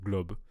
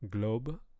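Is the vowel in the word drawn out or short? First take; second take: short; drawn out. First: The vowel is short and pure. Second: The vowel is drawn out, English-like. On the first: The speaker calls it right. "instead of globe" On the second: The speaker calls it wrong. "The vowels kind of a little drawn out"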